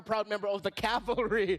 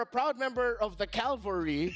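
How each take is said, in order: First: The L sound comes after the V sound. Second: The L sound comes before the V sound. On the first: The speaker calls it right. "now you're a proud member of the cavalry" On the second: The speaker calls it wrong. "so you were a proud member of the cavalry"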